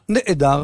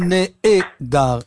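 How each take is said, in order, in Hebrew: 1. אות הגרון סוגרת את ההברה בלי תנועה. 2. אות הגרון באה אחריה תנועה מלאה של פתח. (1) "אלא נעדר" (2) "אנחנו לא אומרים נעדר"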